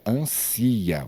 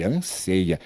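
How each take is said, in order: First: "ansia" with no ei glide, as the mistake; wrong form ansia. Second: Stressed SEI in "anseia"; correct form anseia. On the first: Teacher warns pupils against a wrong conjugation, wrong form ansia. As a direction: say "ansia" with a stressed i, an-SI-a. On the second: Teacher gives pupils the proper conjugation, correct form anseia. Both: Shown as a demonstration. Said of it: "E não diga ansia".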